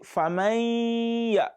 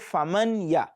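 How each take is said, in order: First: The n is nasalized and held into the ya. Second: The n is pronounced clearly before the ya. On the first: The speaker calls it right. "take your time a little bit on the noon" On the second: The speaker calls it wrong. "Don't say faman ya. When you say faman ya, you are applying idhar"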